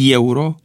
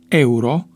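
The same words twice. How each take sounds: First: The word starts with a ye sound. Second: The word starts with a plain e sound. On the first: The speaker calls it wrong. "este incorrectă rostirea" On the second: The speaker calls it right. "Corectă este rostirea"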